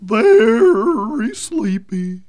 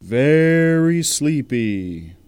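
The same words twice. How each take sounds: First: Trance echo. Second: Mesmerizing. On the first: Echoes in trance. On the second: Hypnotist drawl. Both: Acted.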